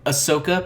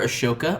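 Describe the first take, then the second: First: The s and h are said as separate sounds. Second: The s and h merge into a sh sound. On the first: The speaker calls it right. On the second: The speaker calls it wrong.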